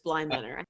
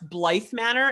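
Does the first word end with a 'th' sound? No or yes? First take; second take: no; yes. First: The first word ends in a plain vowel. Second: The first word ends with a 'th' sound. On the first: The speaker calls it right. "It's Bly Manor" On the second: The speaker calls it wrong. "You said it wrong too"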